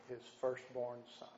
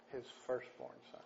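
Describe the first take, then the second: First: Said in the usual way. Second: "His firstborn son" breathed out softer, almost a whisper; whispered echo. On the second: Real, not acted. Preacher to his congregation, hushed for weight.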